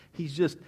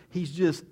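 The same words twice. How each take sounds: The two takes are said the same way.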